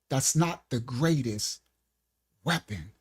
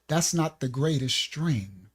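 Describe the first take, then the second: First: It is said at a slower pace. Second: It is said at a faster pace.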